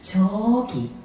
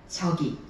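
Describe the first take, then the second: First: The vowel is stretched out long. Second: The word is said short and plain. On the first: "이렇게 할 수 있고요" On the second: "이렇게도 할 수 있지만"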